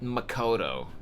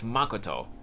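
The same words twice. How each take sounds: First: The stress is on the second syllable. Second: The stress is on the first syllable. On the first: The speaker calls it wrong. "the Americanized pronunciation" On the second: The speaker calls it right. "The emphasis is, is supposed to be on the first syllable"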